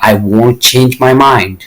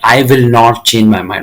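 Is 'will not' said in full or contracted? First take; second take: contracted; full. First: The verb is contracted into one short word. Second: The verb is said in full as two words. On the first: "so कम word में" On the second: "ये नहीं कहते हैं"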